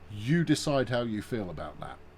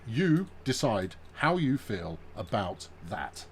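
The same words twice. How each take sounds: First: Spoken quickly and casually, running words together. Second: Spoken slowly with each word clearly articulated.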